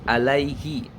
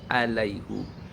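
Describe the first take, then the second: First: The word ends with an i vowel. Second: The word ends with a u vowel. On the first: This is the usual reading elsewhere. "Biasanya alaihi" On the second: This is the special reading in this verse. "maka tetap harus dibaca hu ya"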